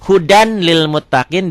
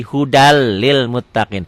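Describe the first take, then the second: First: HUDAN with a clear N before LIL; written form with N. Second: HUDAL LIL with one long doubled L; N merged into L. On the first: Teacher showing learners the spelling, HUDAN with clear N. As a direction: sound the final N of HUDAN, separate from LIL. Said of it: "Dibacanya N-nya hilang". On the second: Teacher showing learners how it is read, N lost in HUDAL. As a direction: drop the N, run HUDAL straight into LIL. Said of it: "N-nya jadi hilang tuh". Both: Shown as a demonstration.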